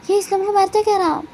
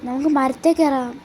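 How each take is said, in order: First: Much higher and louder, triumphant; excited cheer. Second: Said in the usual way. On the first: Acted. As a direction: announce the climb like a victory. (ആവേശത്തോടെ ഉറക്കെ, ഉയർന്ന സ്വരത്തിൽ)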